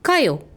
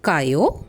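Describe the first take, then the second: First: It is said loudly and forcefully. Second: It is said as a question. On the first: Go. "சத்தமாக அழுத்தி" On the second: Are you going? "கேள்வி கேட்கும்போது"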